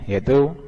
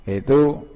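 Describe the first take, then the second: Both takes have the same delivery.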